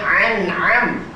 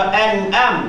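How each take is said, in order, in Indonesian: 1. Dua konsonannya faringal. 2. Dua konsonannya hamzah. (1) "Jangan an'am, dua-dua ain" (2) "dua-dua hamzah"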